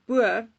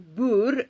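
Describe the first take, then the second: First: The word is pronounced the English way. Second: The word is pronounced the Afrikaans way.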